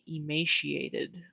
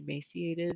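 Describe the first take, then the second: First: The middle consonant is a 'sh' sound. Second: The middle consonant is an 's' sound. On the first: "with an S H in the middle" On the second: "I don't pronounce it like that. I say emaciated"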